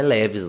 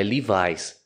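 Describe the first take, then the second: First: "Levi's" dito "LÉ-vis", à brasileira; pronúncia abrasileirada. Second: "Levi's" dito "LI-vais"; pronúncia americana. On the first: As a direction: diga "Levi's" como "lévis". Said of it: "Não é Levi's lá". ("Levi's" com é aberto e final "vis") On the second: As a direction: diga "Levi's" com i longo e final "vais". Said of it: "Lá é Levi's". ("Levi's" à americana, "lívais") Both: Shown as a demonstration.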